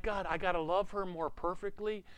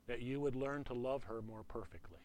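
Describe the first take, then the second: First: Higher-pitched, put-upon complaint to God; mock protest. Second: Quiet, measured instruction from God; the Lord speaking. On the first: Husband balking at God's command to love, mock protest. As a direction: question the demand in a raised pitch. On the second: Retold or imitated. God telling a husband about his marriage, quiet and measured. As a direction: say it softly and evenly, as the Lord. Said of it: "I heard the Lord say to me".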